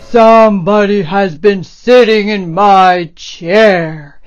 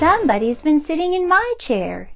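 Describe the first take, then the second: First: It is said in a deep, gruff voice. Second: It is said in a medium voice.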